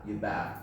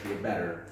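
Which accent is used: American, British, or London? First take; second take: London; American. First: It is said in a London accent. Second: It is said in an American accent. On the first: "London pronunciation" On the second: "American pronunciation"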